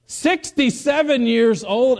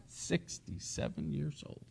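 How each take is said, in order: First: High, slow, incredulous delivery; amazed emphasis. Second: Very soft, slow aside after a chuckle; hushed amused disbelief. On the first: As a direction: stretch out the age in open amazement. Amazed repeat of the woman's age. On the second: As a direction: murmur it slowly, amused and incredulous. Chuckling aside repeating the age. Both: Real, not acted.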